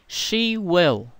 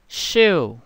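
First: It is said as two full words. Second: It is said as one contracted syllable.

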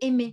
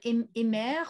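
First: The final R is not pronounced. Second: The final R is pronounced. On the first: This is the modern French pronunciation. The speaker calls it right. "C'est pour ça que vous allez dire « aimer »" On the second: This is the older medieval pronunciation. The speaker calls it wrong. "Vous n'allez pas dire aimer"

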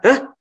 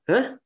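First: It is said in an angry tone. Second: It is said in a puzzled, questioning tone. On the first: The speaker is angry. "Kalau kita sedang marah, hahnya ya kayak marah" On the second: The speaker does not understand. "Tapi kalau kita nggak tahu"

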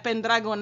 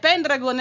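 First: The stress is on the second syllable. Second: The stress is on the first syllable. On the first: This is the Latin-style pronunciation. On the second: This is the Greek-style pronunciation. "è greca"

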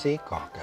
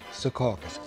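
First: It is pronounced the way locals say it. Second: It is pronounced the way outsiders say it. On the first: The speaker is from New Jersey. The speaker calls it right. "It's Secaucus" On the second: The speaker is not from New Jersey. The speaker calls it wrong. "they say Secaucus"

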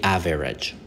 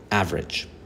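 First: The middle vowel is clearly pronounced. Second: The middle vowel is silent. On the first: The speaker calls it wrong. "We don't say average" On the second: The speaker calls it right. "the E is silent"

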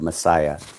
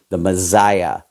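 First: The double S is said as an s sound. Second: The double S is said as a z sound. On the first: This is how others usually say the word. "instead of Messiah" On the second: This is how the man himself said the word. "he always used the Z phrase"

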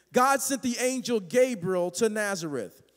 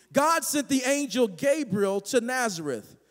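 Both takes have the same delivery.

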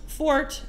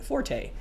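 First: The word is said as one syllable. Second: The word is said as two syllables. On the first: It means a talent or strength. The speaker calls it right. "pronounced fort" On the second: It is the Italian musical word for loud. The speaker calls it wrong. "often mispronounced forte"

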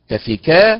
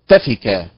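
First: The stress falls on the syllable ka. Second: The stress falls on a different syllable. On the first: The speaker calls it right. "النبر على حركة الكاف فتنطق تفكا" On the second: The speaker calls it wrong. "وليست تفكا"

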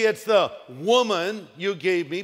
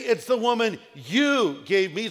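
First: The stress falls on the word woman. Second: The stress falls on the word you.

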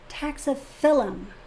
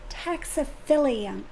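First: The word ends with a plain 'um' sound. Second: The word ends with an extra 'ee-um' sound. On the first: The speaker calls it right. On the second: The speaker calls it wrong.

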